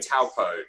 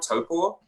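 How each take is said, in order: First: The first syllable does not sound like 'toe'. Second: The first syllable sounds like 'toe'. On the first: The speaker calls it wrong. "that wasn't correct" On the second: The speaker calls it right. "like toe, like the toe you have on your foot, and then paw"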